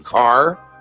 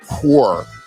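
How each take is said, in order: First: The vowel is an open 'ah' sound. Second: The vowel is a rounded 'aw' sound. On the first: "instead of saying car" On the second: "they say core"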